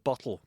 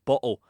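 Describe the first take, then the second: First: The middle consonant is a full t. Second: The middle consonant is a glottal stop.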